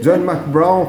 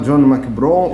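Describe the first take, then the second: First: The name is said with English sounds. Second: The name is read letter by letter in Portuguese.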